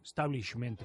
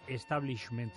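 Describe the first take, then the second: First: The word begins directly with an s sound. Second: The word begins with an added e vowel. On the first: This is the English pronunciation. "Pronunciado en inglés sería comenzando por la S" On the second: This is the Spanish pronunciation. "En español"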